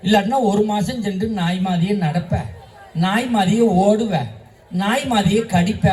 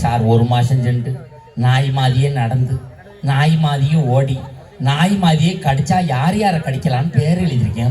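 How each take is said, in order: First: Lightly acted teacher warning a pupil; teacher's warning. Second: Low, monotone schoolboy reporting to sir; pupil reciting back. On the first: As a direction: spell out each consequence like a mildly scolding teacher. Teacher warns pupil about dog bite. (மாணவனை லேசாக எச்சரிக்கும் ஆசிரியர் தொனி) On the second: Acted. Pupil earnestly repeats the warning back. (தாழ்ந்த குரலில் ஒப்பிக்கும் மாணவன்)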